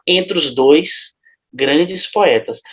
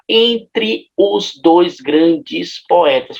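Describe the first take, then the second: First: Entre and os merge into one syllable. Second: Entre and os are said as separate syllables. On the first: The line fits the seven-syllable meter. The speaker calls it right. "A gente fala entre os dois grandes poetas" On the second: The line no longer fits the meter. The speaker calls it wrong. "a gente não fala entre os dois grandes poetas, porque aí não cabe na métrica"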